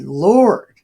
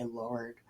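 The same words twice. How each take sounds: First: Loud cry. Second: Muttered Lord. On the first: Acted. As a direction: Lord called out loud and high. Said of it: "He said". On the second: Shown as a demonstration. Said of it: "He did say".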